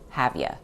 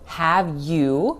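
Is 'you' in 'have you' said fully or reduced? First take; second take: reduced; full. First: The word 'you' is reduced to 'ya'. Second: The word 'you' has a full vowel. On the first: "reduces to have ya" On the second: "So have you reduces to"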